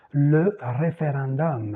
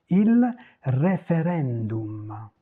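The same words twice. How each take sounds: First: "référendum" ending in -om; French pronunciation. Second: "référendum" slow, ending in oo-m; Italian pronunciation as written. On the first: Teacher giving the French example, "référendum" ending -om. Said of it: "vous dites le forum". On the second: Teacher contrasting Italian with French, "référendum" ending oo-m. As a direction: stretch "référendum" with a true Italian u. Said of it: "se prononcent tel quel". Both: Shown as a demonstration.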